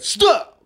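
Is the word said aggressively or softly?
aggressively. The word is barked out harshly and aggressively. The speaker calls it right. "I'm trying to say it in the most aggressive way I can say it"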